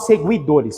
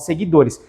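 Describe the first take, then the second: First: A U glide is heard after the G sound. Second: No U glide is heard after the G sound. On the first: The speaker calls it wrong. "Eu não falo seguidores" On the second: The speaker calls it right. "eu falo seguidores... eu pronuncio U? Não"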